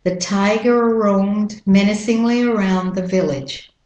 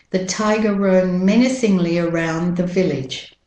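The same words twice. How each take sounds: First: American "tiger roamed" linked on one R; American-accent model sentence. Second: British-Australian model sentence, "tiger" without final R; British-Australian accent, evenly spoken. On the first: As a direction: glide through "tiger roamed", American style. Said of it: "So you link them together". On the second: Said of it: "And with the American accent". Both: Shown as a demonstration.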